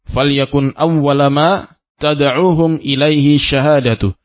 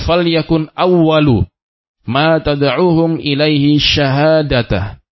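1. Awwal berakhir dengan a, syahada berakhir dengan u. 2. Awwal berakhir dengan u, syahada berakhir dengan a. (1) "Syahadah di sini dibaca dengan marfu'. ... Awwala dibaca dengan mansub, berharokat fathah" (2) "boleh juga terbalik. Awalnya sebagai isim yakun dan syahadah sebagai khabar"

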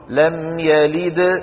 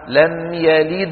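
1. الدال الأخيرة فيها قلقلة قوية وواضحة. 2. الدال الأخيرة فيها قلقلة خفيفة وضعيفة. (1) "أما لو وقفت فقلت لم يلد شو بتكون؟ كبرى" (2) "صغرى لأنني لم أقف عليها"

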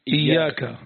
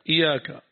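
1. تُنطق الياء طويلة ومشدّدة. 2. الياء قصيرة ومفردة. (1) "على شد الياء" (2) "بكسر الهمزة وتخفيف الياء"

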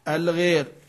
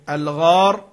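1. الصوت الطويل مائل نحو صوت الكسر (e). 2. الصوت الطويل ألف مفتوحة (a).

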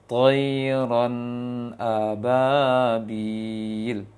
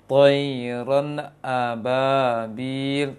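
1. Nun mengalir langsung ke hamzah. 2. Bunyi nun terputus terlalu cepat. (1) "Seperti itu" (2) "Kalau yang terlalu cepat seperti ini"

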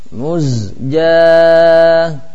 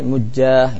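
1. Bunyi z jelas sebelum j. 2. Bunyi z menyatu dengan j yang mengikutinya.

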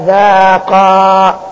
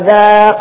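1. يبقى حرف المد الأخير عند الوقف. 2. يسقط حرف المد الأخير عند الوصل بالكلمة التي بعدها. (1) "فلم يوقف عليه زي كده بألف" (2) "لما يوصل يحذف الألف"

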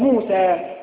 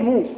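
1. تنتهي الكلمة بحرف المد الطويل a. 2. تنتهي الكلمة بالحرف الساكن s. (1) "هذا هو الصواب، موسى" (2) "نحن في اللغة الدارجة نقول موس"

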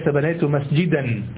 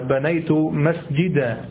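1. تنتهي الكلمة الأخيرة بصوت -an. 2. تنتهي الكلمة الأخيرة بألف طويلة. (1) "وليس بنيت مسجدا"

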